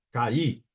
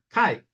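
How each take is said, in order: First: CAÍ in two syllables, stressed on the I; hiato. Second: CAI in one syllable, vowels glided together; ditongo. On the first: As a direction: split CAÍ into ca-Í. (hiato, CAÍ em duas sílabas) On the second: (ditongo, CAI numa sílaba só) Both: Shown as a demonstration. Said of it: "veja a diferença de pronúncia".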